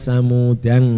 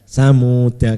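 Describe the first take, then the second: First: The word ends in an added ng sound. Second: The word ends in a short a vowel. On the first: The word is read with tanwin. "sebagian ulama ada yang membaca tanwin" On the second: The reading continues without tanwin. "dibaca pendek ya"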